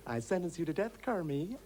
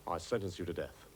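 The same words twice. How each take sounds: First: Comic high judge, rising at the end; Kermie's co-star impression. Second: Low-pitched trial judge voice; judge's voice. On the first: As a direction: try the death sentence in a silly raised voice. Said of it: "How does it look?". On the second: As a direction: pronounce sentence low, as a stock judge. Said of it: "How's this for starters?". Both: Shown as a demonstration.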